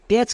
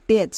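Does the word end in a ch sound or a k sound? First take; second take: ch sound; ch sound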